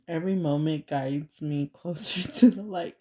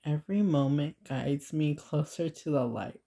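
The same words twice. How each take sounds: First: Reading with a laugh breaking through; trying not to laugh. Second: Said in the usual way. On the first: Real, not acted. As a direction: read aloud while fighting real giggles. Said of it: "trying not to laugh". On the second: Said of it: "I'm gonna pause for a second".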